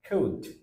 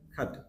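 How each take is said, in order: First: The word is said with its full strong vowel. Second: The word is said with a weak reduced vowel. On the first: "আমরা যেটাকে strong sound করি" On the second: "উইক sound আসলে sound আসে খা"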